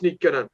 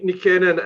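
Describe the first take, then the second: First: The stress falls on the first syllable. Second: The stress falls on a later syllable. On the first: The speaker calls it right. "we all know it's it's Nikkenen" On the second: The speaker calls it wrong. "usually don't don't accent, accentuate uh, the the words on the first syllable"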